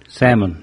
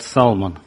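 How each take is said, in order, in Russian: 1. Звук L немой. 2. Звук L произносится. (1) "Но «л» нечитаемая" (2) "Русские эмигранты говорят «салмон»"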